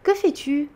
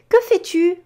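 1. La mélodie montante de la question est plus douce et modérée. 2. La mélodie montante de la question est très exagérée. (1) "normalement on va le faire un petit peu moins" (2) "j'ai fait exprès d'en faire un petit peu trop"

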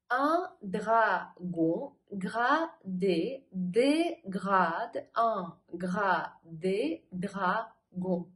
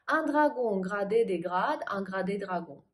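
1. Фраза разбита на отдельные слоги. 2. Фраза произносится быстро, без пауз. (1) "По слогам" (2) "Быстро"

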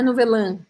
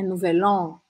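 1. A última vogal não tem a boca bem aberta. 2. A última vogal tem a boca bem aberta. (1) "Não é nouvelan" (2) "é nouvel an"

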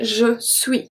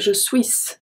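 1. Le S final de suis ne se prononce pas. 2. Le S final de suis se prononce. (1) "We say je suis, suis, so we do not pronounce the S" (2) "so we don't say je suis"

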